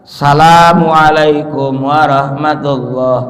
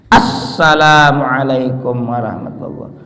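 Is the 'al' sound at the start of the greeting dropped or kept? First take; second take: dropped; kept. First: The 'al' sound at the start is left out. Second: The 'al' sound at the start is clearly pronounced. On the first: The speaker calls it wrong. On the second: The speaker calls it right.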